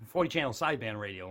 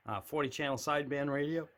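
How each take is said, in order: First: Said in the usual way. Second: A catch in the throat mid-phrase; throat glitch. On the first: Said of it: "Let me try that without the". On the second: Real, not acted. Collector listing his radios, throat catching. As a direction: voice snags in the throat. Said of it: "whatever my throat just did".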